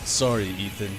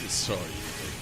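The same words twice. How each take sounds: First: The voice is fairly smooth and not very rough. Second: The voice is rough, raspy and brutish.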